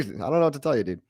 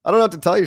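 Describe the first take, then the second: First: Said in the usual way. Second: Louder and higher, exasperated; emphatic. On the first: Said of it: "repeats line, second take plain". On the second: Real, not acted. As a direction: throw it out, fed up and loud. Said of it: "repeats line, first take punched".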